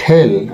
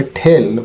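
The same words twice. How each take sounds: First: "টেল" with unaspirated t; old "টেল" pronunciation. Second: "টেল" with a strongly aspirated t, thel; correct "টেল". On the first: Teacher quoting the old habit, "টেল" with plain t. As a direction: say "টেল" with no puff on t. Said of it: "আমরা এটা এতদিন বলতাম টেল". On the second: Teacher correcting viewers, "টেল" as thel. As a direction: puff the t in "টেল". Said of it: "এটা হবে টেল". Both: Shown as a demonstration.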